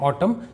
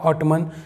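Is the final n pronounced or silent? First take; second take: silent; pronounced. First: The word ends with m and no n. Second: The word ends with an audible n sound. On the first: The speaker calls it right. "ये दोस्तों ये है ऑटम" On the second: The speaker calls it wrong. "कई लोग इसे अजीब तरह से पढ़ते हैं"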